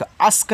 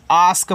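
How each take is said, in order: First: अस्क with a short a, the wrong way; the mistaken अस्क with a clipped vowel; wrong pronunciation. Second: आस्क with a long open aa; the right way, आस्क with a long aa; correct pronunciation. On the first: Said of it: "अस्क नहीं". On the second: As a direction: shown as correct, a stretched aa in आस्क. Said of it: "आस्क पढ़ना है". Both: Shown as a demonstration.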